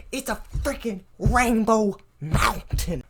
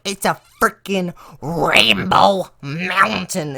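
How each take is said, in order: First: Slow, indignant teacher scolding, stretching "rainbow mountain"; hammed-up outrage drawn out at a slow pace; mock furious teacher. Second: Slower, louder retake of "It's a freaking rainbow mountain", each word stretched; hammed-up indignant punchline, drawn out; mock furious teacher. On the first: Teacher scolding the class over the rainbow mountain, mock fury. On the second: Teacher yelling at laughing students about the mountain, mock anger. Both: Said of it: "she's so mad".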